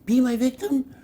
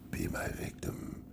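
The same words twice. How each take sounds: First: The line is delivered strongly and forcefully. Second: The line is delivered with deep, serious gravity. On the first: The speaker calls it wrong. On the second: The speaker calls it right.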